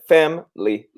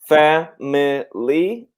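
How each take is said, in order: First: The middle vowel is silent, giving two syllables. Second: The middle vowel is pronounced, giving three syllables. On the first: "normally we pronounce it family. So this I is normally silent" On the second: "We can pronounce it family"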